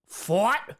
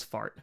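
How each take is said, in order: First: "Fart" as "fort", pitched up like a question; imitated pronunciation. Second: Said in the usual way. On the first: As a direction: mimic his "Fart" with a rounded vowel, rising sharply. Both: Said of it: "love the way he says fart".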